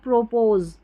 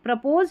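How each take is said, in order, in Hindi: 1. पहला स्वर पूरा 'oh' जैसा है। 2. पहला स्वर छोटा 'uh' जैसा है।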